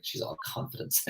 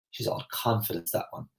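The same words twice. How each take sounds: First: Whispered, scornful "She's all confidence"; retelling how the ladies judged her, in a whisper; disapproving whisper. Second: Quiet, begrudging remark, softer than her talk; disapproving gossip. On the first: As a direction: breathe it out like gossip behind a hand. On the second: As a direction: murmur it like a disapproving neighbour. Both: Retold or imitated. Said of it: "that's the way they said it".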